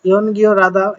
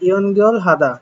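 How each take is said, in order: First: The L moves over to start the next syllable. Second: The L ends the syllable before a separate H.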